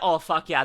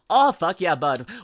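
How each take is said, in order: First: It has a mild Canadian accent. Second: It has a strongly exaggerated Canadian accent.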